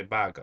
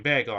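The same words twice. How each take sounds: First: "bago" with an open "ah" in the first syllable. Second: Said in the usual way. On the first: Shown as a demonstration. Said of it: "I say bago". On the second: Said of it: "Instead of ba-, saying bagel".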